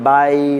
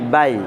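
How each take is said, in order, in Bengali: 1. শব্দাংশটিকে টেনে লম্বা করে বলা হয়। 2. শব্দাংশটি টান না দিয়ে দ্রুত বলা হয়। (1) "বাই টান দিয়ে ... উচ্চারণটা ভুল হবে" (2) "টান দেওয়া যাবে না"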